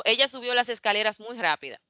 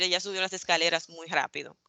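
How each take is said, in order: First: "rápida" with final a; "rápida" ending in a; wrong form. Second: "rápido" with final o; "rápido" ending in o; correct form. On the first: ("rápida" con a final) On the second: ("rápido" con o final) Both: Shown as a demonstration. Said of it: "por decir".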